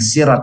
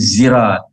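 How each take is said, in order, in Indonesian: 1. Kata itu diawali dengan bunyi s. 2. Kata itu diawali dengan bunyi z. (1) "bukan sirat" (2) "membacanya zirat"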